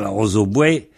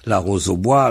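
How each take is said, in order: First: The last word ends with a 'we' sound. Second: The last word ends with a 'wa' sound. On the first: "wa se prononce we dans certaines régions"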